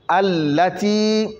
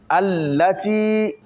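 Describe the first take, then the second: No difference in how they are said.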